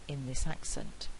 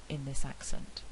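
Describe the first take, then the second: Both takes have the same delivery.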